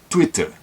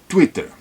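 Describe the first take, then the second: No difference in how they are said.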